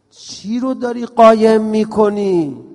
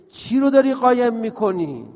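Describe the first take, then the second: First: Slow and loud, leaning on قایم; slow emphatic question. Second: Said in the usual way. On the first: Shown as a demonstration. Preacher pressing the audience on what they hide, slow and loud. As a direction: stretch out قایم and push it hard. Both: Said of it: "چقدر حرف قشنگیه".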